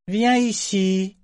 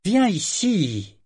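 First: High, slow, drawn-out command; slow imperious summons; commanding order. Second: High, slow, irritated order; impatient drawn-out command; irritated repeat. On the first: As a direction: summon her like a servant. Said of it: "ordonna-t-il". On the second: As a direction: repeat the order, losing patience. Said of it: "répéta-t-il, irrité". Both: A narrator's reading.

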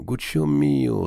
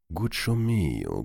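First: Slow, higher, affectionate and patient; gently. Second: Put-on calm the boy down softly; gently. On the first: The old banker fondly repeats his nephew's name. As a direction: coax him with a fond lift. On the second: The old banker gently answers his reproachful nephew. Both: A narrator's reading. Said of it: "répondit doucement le banquier".

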